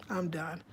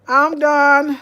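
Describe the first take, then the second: First: Soft, low and drained; worn-out murmur. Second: Loud exasperated cry. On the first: Speaker to her viewers, quietly giving up. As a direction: let it drop away, spent. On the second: Speaker to her viewers, loudly exasperated. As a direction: blurt it out, fed up. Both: Real, not acted.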